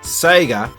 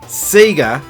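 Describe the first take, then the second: First: The name is said the standard way. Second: The name is said the Australian way. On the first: This is the pronunciation heard in the game's jingle. The speaker calls it right. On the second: This is the local pronunciation in Australia and New Zealand. The speaker calls it wrong.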